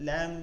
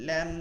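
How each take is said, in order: No difference in how they are said.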